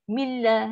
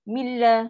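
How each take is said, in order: First: The n merges fully into a doubled l. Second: The same.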